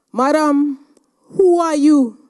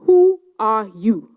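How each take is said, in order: First: Higher, louder repeated demand; loud insistent challenge. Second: A hushed, breathless whisper; whispered challenge; whispered question. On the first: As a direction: press her, raising the voice. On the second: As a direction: ask it under your breath, pointed. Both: Retold or imitated. President repeats her question.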